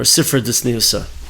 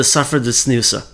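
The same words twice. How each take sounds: First: "Sifra Ditzniusa", opening on SIF, not SAF; Sifra pronunciation. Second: "Safra Ditzniusa", opening on SAF, not SIF; Safra pronunciation. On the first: Teacher offers the other reading of the name, Sifra pronunciation. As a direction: say "Sifra" with an ih in the first syllable. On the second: Teacher names the Zohar section to students, Safra pronunciation. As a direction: say "Safra" with an ah in the first syllable. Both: Shown as a demonstration. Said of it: "depending on how you pronounce it".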